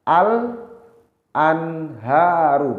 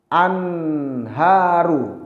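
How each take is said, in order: First: The L sound is pronounced clearly. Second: The L sound is not heard clearly. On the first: The speaker calls it right. "lamnya dibaca jelas" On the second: The speaker calls it wrong. "bukan dibaca"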